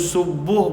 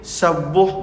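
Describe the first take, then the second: First: The first vowel is a rounded 'u' sound. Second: The first vowel is an open 'a' sound. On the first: The speaker calls it right. "boleh dibaca dengan berbaris depan dhammah" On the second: The speaker calls it wrong. "boleh dibaca dengan baris atas fathah"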